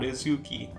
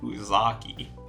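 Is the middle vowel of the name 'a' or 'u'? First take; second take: u; a. First: The middle vowel is a 'u' sound. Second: The middle vowel is an 'a' sound. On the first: The speaker calls it wrong. "not Uzuki" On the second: The speaker calls it right. "I said Uzaki"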